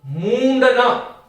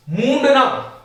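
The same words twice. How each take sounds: First: मूंडना drawn out very slowly; slow spelling demo. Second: Said in the usual way. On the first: Shown as a demonstration. Teacher dictating मूंडना to students, very slowly. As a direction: say मूंडना slowly, letting the nasal sound through. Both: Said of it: "मूंडना शब्द का प्रयोग इस प्रकार से आप करें".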